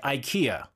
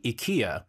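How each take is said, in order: First: "ikea" as eye-KEE-uh; American pronunciation. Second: "ikea" the Swedish way, EE-KAY-uh; correct pronunciation. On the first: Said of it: "Americans, be like". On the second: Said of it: "the correct pronunciation is". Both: Shown as a demonstration.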